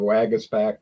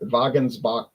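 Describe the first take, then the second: First: The name has a French pronunciation. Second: The name has a German pronunciation. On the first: This is the name after officials changed it. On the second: This is the family's original name. "changed their names from"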